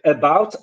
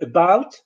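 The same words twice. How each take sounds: First: The first vowel is a full vowel. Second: The first vowel is a weak schwa. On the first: The speaker calls it wrong. "some people say about" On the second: The speaker calls it right. "instead of saying about"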